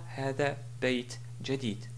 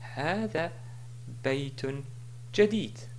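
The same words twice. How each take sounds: First: The middle word ends on a bare final 't'. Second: The middle word ends with a final '-un' sound. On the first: The speaker calls it wrong. "et non pas" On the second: The speaker calls it right. "Si je voulais continuer, je dis"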